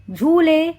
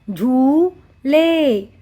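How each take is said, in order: First: Said in the usual way. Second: "झूले" split as झू... ले; "झूले" in two held syllables with a gap. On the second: Shown as a demonstration. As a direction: sound out "झूले" very slowly. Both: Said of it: "उच्चारण करके पढ़ेंगे".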